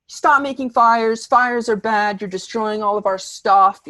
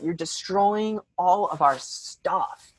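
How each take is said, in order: First: High, loud, insistent mock rant; hammed-up ranting complaint; going on and on. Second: Slow, drawn-out mock whine; hammed-up, slowed-down grievance; repeated complaint. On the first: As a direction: imitate the friend nagging relentlessly. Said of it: "she just keeps going on and on". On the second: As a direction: stretch each word in an imitated lament. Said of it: "She keeps saying that".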